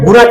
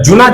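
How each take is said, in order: First: The word begins with a G sound. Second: The word begins with a J sound. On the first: This form came in through Urdu and Hindi. The speaker calls it wrong. "গুনা কেন বলবো?" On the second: This is the original Arabic form. The speaker calls it right. "জুনা শব্দটা আরবি শব্দ"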